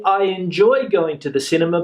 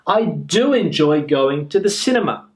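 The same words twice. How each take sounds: First: Said in the usual way. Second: "do" leaned on, clearly stressed; teacher stresses "do" to show emphasis. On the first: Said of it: "we could say". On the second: Shown as a demonstration. Teacher showing students the emphatic "do". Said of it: "that emphatic use that I'm trying to get here".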